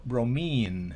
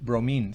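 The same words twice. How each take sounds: First: The final vowel is long. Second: The final vowel is short. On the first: The speaker calls it right. "sino bromine" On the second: The speaker calls it wrong. "no digo bromine"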